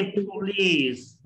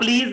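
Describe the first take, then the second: First: प्लीज drawn out with a puffed P; stretched प्लीज, opening on aspirated "ph"; aspirated initial P. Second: Said in the usual way. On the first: Shown as a demonstration. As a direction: slowly say प्लीज with a breath after P. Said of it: "जब शुरू में आएगा पी की आवाज". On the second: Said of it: "आप प्लीज नहीं".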